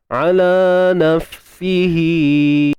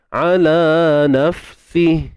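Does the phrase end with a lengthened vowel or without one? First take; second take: lengthened vowel; without one. First: The final vowel is held for two counts. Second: The phrase ends without the final vowel. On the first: The reading continues on into the next word. "ketika silah" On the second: The reading stops at this word. "Kalau kita berhenti, ... Dah tak ada dah bunyi bunyi mat"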